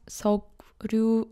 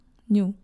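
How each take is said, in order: First: The syllables join with a k then r sound. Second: The syllables join with an ng then n sound. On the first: The speaker calls it wrong. "not Seokryu" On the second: The speaker calls it right. "Songnyu, not Seokryu or Songryu"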